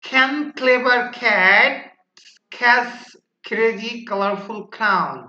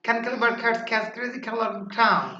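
First: Slow, louder start with spaced-out words; slow first take. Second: Rapid tongue twister in one run; even faster. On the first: Teacher models the first tongue-twister round for students, slowly. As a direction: say the tongue twister slowly, pausing between chunks. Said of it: "প্রথমবার একটু ছলো". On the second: Teacher models the last tongue-twister round for students, rapidly. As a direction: rattle the tongue twister off without pausing. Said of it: "তারপর আবার আরো দ্রুত". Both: Shown as a demonstration.

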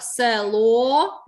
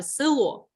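First: Село with a long, louder final О; село, last syllable drawn out and punched; stress on final О. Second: Село mispronounced as "сило", with и; село with its first vowel turned into и; И in place of Е. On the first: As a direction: lean hard on the о in село. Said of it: "наголос на о". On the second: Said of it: "замість е ставлять и". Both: Shown as a demonstration.

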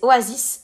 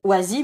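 First: "Oasis" with the final s sounded, "o-a-ziss"; corrected Oasis. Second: "Oasis" with the final s silent, like "oazi"; mispronounced Oasis. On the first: Shown as a demonstration. Presenter corrects the screen reader, "Oasis" with final s sounded. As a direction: finish "Oasis" on an audible s. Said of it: "mais en fait, c'est Oasis". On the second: Retold or imitated. Presenter repeats the screen reader's slip, "Oasis" without final s. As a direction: say "Oasis" as "oazi", dropping the last s. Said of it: "il a dit Oasis, mais en fait, c'est Oasis".

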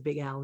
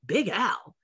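First: Said in the usual way. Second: Retold incredulous question, pitch jumping; taken-aback reaction. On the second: Studio staff questioning her audition choice, taken aback. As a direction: echo it back in mock disbelief.

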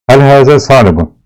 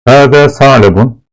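First: Hel hâzâ sâlebun asked with hâzâ stressed high; Arabic question. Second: Hâzâ sâlebun, Hâzâ stressed on a higher pitch; Hâzâ sâlebun in teacher's Arabic; Arabic phrase read aloud. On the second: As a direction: recite Hâzâ sâlebun like a textbook line. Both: Shown as a demonstration. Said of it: "Bunu göstermiş".

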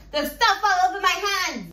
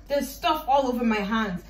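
First: Higher, louder repeat of the complaint; mock outburst. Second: Said in the usual way. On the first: Vlogger wails about messy hands, mock outburst. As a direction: cry out in mock dismay.

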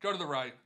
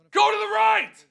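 First: Said in the usual way. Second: Screamed high and much louder; desperate shout; real frantic yell. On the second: Real, not acted. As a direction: bellow at the wheel to land right. Urging the game wheel.

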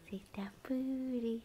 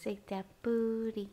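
First: Slow soft playful whisper. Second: Said in the usual way. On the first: Real, not acted.

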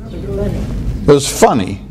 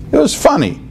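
First: Said in the usual way. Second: It was funny squeaked much higher; high mock squeal. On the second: Shown as a demonstration. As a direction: pitch It was funny way up mockingly. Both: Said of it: "what are you saying".

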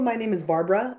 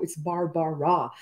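First: BARBARA run together quickly; quick, slurred-together BARBARA; said too fast. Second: BARBARA slowly split as BAR-BA-RA; slow, careful BAR-BA-RA; syllable by syllable. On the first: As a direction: rush through the name Barbara so its syllables blur. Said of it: "I say it so fast". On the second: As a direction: spell out Barbara by ear, three separate even syllables. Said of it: "I'm saying my own name wrong". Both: Shown as a demonstration.

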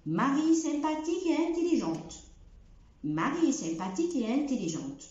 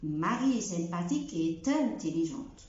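First: Slow, et intelligente kept apart, no t; no liaison after et. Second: Slow, et intelligente linked with a t; wrong liaison after et. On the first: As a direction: pause after et, no linking t. (et intelligente من غير ربط) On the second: (ربط غلط et-t-intelligente) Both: Shown as a demonstration. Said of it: "ما بقولش".

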